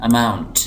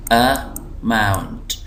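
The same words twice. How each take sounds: First: amount joined up, mount pressed; light अ, then hit mount in amount; stress on MOUNT. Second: amount very slow, in two parts; syllable by syllable. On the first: Teacher reading the word whole, stress on mount in amount. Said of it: "इसको मैं ज़ोर दे रहा हूँ". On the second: Teacher showing the two syllables, slow split word. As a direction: split amount into अ, pause, mount. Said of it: "जो दो syllable हैं". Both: Shown as a demonstration.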